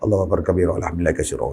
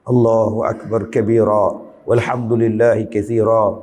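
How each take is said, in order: First: It is recited quickly and hurriedly. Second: It is recited slowly and deliberately. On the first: The person just wants to finish without feeling it. The speaker calls it wrong. "Dia kira nak cepat habis" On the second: The person is truly speaking to God. The speaker calls it right. "Cuba bercakap dengan Tuhan pelan-pelan"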